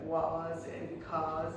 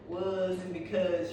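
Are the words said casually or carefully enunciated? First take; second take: enunciated; casual. First: The words are said with careful, crisp enunciation. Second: The words are said casually, with relaxed sounds. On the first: The speaker calls it right. "enunciate and pronounce words like properly" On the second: The speaker calls it wrong. "instead of saying like"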